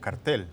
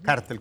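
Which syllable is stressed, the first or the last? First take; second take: last; first. First: The stress falls on the last syllable. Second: The stress falls on the first syllable. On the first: It is the local form. "aquí los conocemos como cartel" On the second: It is the foreign-origin form. "pues ya llevaría inclusive el- la tilde en la A"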